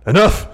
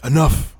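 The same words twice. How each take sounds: First: Loud sharp yell of Enough; Regal shouting. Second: Hoarse loud shout, voice straining; sick voice. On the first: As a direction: bellow it like a stern boss. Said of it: "Regal comes out and says". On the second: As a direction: yell through a sick throat. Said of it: "in my sick voice". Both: Retold or imitated.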